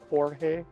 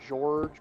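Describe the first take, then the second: First: The name is pronounced Jorge instead. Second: The name is pronounced as spelled, George. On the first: "but pronounced Jorge" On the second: "spelled G E O R G E"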